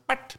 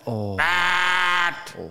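First: The honk sound is short and soft. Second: The honk sound is long and loud. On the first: A polite little honk. "ikke en liten sånn bert" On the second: A rude, aggressive honk. "men bert!"

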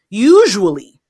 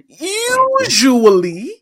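First: The word is said plainly, without extra force. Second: The word is said with strong, energetic force.

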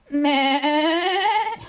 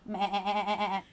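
First: The goat noise is sassy and attitude-filled. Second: The goat noise is plain, without sass.

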